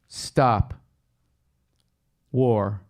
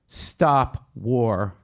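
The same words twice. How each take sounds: First: A pause separates the two words. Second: The words run together without a break.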